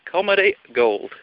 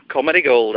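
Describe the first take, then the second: First: GOLD drawn out slowly, COMEDY pitched up; drawn-out boast. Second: Said in the usual way. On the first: Real, not acted. Comic admiring his own joke, drawn-out "Comedy gold". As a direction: savour "Comedy gold", slow and higher. Repeats boast with added emphasis.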